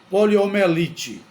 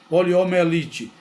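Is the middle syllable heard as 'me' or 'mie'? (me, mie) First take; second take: me; me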